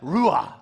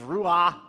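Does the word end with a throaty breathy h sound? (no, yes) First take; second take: yes; no. First: The word ends with a throaty h sound. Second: The word ends without a throaty h sound. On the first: The speaker calls it right. "there's a huh at the end because it's Hebrew" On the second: The speaker calls it wrong. "don't say it like Americans"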